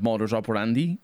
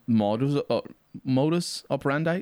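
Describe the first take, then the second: First: It is said with a Latin-style pronunciation. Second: It is said with an English-style pronunciation. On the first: The phrase is treated as a Latin phrase. "more close to what Latin was" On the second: The phrase is treated as an English word. "it's an English word, and so it's pronounced modus operandi"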